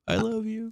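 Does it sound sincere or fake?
fake. It sounds fake and insincere.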